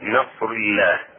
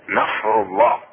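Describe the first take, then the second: First: The l in Allah is thin and light. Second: The l in Allah is thick and heavy. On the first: The speaker calls it wrong. "وليس نصر الله" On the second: The speaker calls it right. "بل نصر الله"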